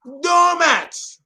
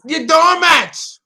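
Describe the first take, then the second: First: High quick echo of the insult; a short high mock call; mock jeer. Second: Slow, high, loud jeer; drawn-out mock yell, pitched high; mock scolding shout. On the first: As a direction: toss it off again, higher and lighter. Repeated jeer. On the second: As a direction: call them out like a heckler.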